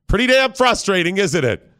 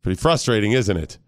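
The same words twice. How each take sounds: First: Higher, more forceful prodding; insistent goading. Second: Low, understated prodding; casual needling. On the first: Dad goading son about the toy, insistent needling. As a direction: push harder to get a rise out of him. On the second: Dad prodding son to get mad, casual low needling. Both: Acted.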